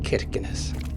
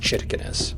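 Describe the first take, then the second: First: The name begins with a hard K sound. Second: The name begins with a ch sound. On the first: The speaker calls it wrong. "we were pronouncing it like Captain Kirkenes" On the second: The speaker calls it right. "I think it's Chirkenes"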